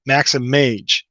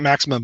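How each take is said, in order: First: The word ends like 'image'. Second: The word ends like 'maximum'. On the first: The speaker calls it right. "but Maximage" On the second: The speaker calls it wrong. "not maximum"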